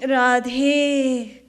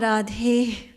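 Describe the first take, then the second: First: It is said with a stretching strain. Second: It is said through a yawn. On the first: "while stretching" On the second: "while yawning"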